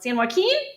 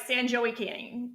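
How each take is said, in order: First: The name is said with Spanish-style pronunciation. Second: The name is said with Anglicized Texan pronunciation. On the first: The speaker calls it right. "That one I get right" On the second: The speaker calls it wrong. "if it were here, it'd be like San Joaquin"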